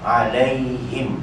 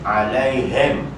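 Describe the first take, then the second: First: The final syllable is said plainly and lightly. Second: The final syllable sounds like clearing the throat. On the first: The speaker calls it right. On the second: The speaker calls it wrong.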